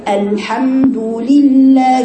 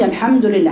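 First: Very slow الحمد لله with a clear "li" in لله; drawn-out tajweed demonstration; full kasra demo. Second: Quick, casual الحمد لله with unfinished damma and kasra; the wrong, unstretched الحمد لله; careless vowels. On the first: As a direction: stretch الحمد لله, each vowel fully formed. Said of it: "شوف الكسرة". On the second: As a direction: run through الحمد لله without forming the short vowels. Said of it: "مش الحمد لله". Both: Shown as a demonstration.

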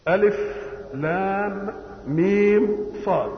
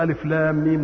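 First: ألف لام ميم صاد drawn out slowly, each letter named apart; slow deliberate letter-by-letter recitation of ألف لام ميم صاد; letters spelled slowly. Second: Said in the usual way. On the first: Shown as a demonstration. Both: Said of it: "كل ما يجيب حرف مقطع".

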